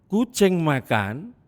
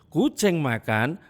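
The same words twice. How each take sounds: No difference in how they are said.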